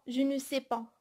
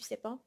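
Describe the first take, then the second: First: The word 'ne' is clearly pronounced. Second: The word 'ne' is dropped entirely. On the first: This is the full written form. "je ne dis pas je ne sais pas" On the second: This is casual spoken French. "je dis je sais pas"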